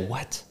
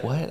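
First: It sounds disgusted and harsh. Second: It sounds curious, like a genuine question.

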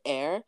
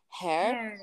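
First: The word begins directly with a vowel. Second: The word begins with an added h sound. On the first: The speaker calls it right. "pronounce like the word air" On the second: The speaker calls it wrong. "she puts like an H in front of it and she says like"

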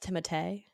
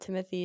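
First: The name is pronounced the French way. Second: The name is pronounced the English way. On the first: The speaker calls it right. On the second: The speaker calls it wrong.

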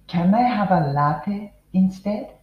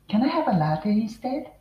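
First: The sentence is spoken slowly and deliberately. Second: The sentence is spoken quickly with brisk rhythm. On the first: "まずは私がゆっくり言っていきます。" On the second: "もうちょっとテンポよく、早く"

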